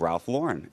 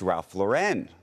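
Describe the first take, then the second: First: The name is said in a plain American way. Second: The name is said with a French-sounding accent. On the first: The speaker calls it right. "It's the first pronunciation" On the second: The speaker calls it wrong. "sort of a little bit of a French? ... sort of a luxury accent that's being added"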